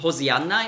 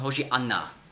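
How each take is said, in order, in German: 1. Der mittlere Konsonant ist ein einfacher s-Laut. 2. Der mittlere Konsonant ist ein sh-Laut. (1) "bei uns in der Bibel Hosianna" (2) "hebräisch ausgesprochen Hoshianna"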